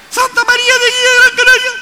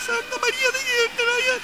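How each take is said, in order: First: Very high, loud metallic call. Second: Very high and much softer echo; faint echo. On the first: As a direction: call it out across the mountains. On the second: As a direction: answer faintly like a distant echo. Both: Shown as a demonstration. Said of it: "El eco de una montaña".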